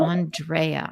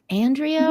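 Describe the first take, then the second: First: "Andrea" with open "ahn", stressed "dray" in the middle. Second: "Andrea" with flat first A, "dree" in the middle. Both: Shown as a demonstration. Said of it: "Is it Andrea or Andrea".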